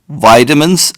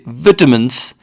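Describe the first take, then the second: First: It is said in an American accent. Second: It is said in a British accent. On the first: "as the Americans say" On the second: "British would say vitamins"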